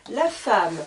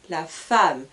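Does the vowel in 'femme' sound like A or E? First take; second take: A; A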